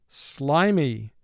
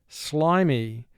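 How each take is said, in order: No difference in how they are said.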